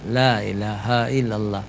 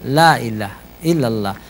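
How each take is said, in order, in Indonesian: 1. Bunyi h pada ilaha jelas diucapkan. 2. Bunyi h pada ilaha dihilangkan. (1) "Cara berzikir misalnya ... tidak dilarang ya" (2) "Tapi kalau salah ... Jadi ha itu kemana? Jangan hilang ha"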